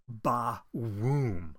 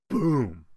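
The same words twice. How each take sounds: First: Ba-woom stretched slow and booming; drawn-out explosion. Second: Said in the usual way. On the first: Shown as a demonstration. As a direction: say ba-woom like a slow cartoon blast. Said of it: "I mean". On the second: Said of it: "'cause he blows up".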